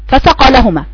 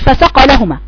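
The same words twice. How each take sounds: First: The vowel after the m is held long. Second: The vowel after the m is cut short. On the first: The speaker calls it right. "مد طبيعي بعد الميم، تمد في حركتين" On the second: The speaker calls it wrong. "ما تقوليش فسقى لهما"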